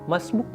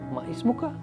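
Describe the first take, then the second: First: The words merge and the final vowel drops. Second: All four syllables are said in full.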